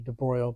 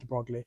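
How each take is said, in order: First: Broglie is said with one syllable, like 'broy'. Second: Broglie is said with two syllables, like 'brog-lee'. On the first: "I should be a professional and pronounce it properly" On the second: "it's written"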